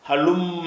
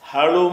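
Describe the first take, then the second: First: The m sound is held long, doubled. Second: The m sound is short and single. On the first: The speaker calls it right. "மீமில் ஷத்து இருக்கிற காரணத்தினால்" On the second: The speaker calls it wrong. "ஹலும என்று சொல்லாமல்"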